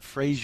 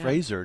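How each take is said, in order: First: The name ends in a '-zhur' or '-zier' sound. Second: The name ends in a plain '-zer' sound. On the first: The speaker calls it wrong. "not Frasier" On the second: The speaker calls it right. "Fraser, not Frasier"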